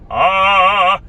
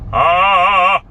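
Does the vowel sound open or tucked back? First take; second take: tucked back; tucked back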